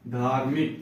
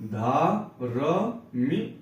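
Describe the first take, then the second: First: Said in the usual way. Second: धार्मिक stretched as धा-र-मिक, very slow; teacher sounding out धार्मिक slowly; slow syllable reading. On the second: Shown as a demonstration. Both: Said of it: "जब भी ये लगा रहे".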